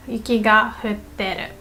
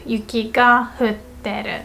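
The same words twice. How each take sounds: The two takes are said the same way.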